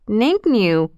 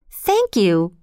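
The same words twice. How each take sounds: First: "Thank you" with the th turned into a nasal n, like "nank nyou"; through a sore nose. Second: Said in the usual way. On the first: Shown as a demonstration. Elephants whose stretched noses hurt say "Thank you" with a nasal n sound. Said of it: "because their noses hurt". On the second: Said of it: "though it sounded more like".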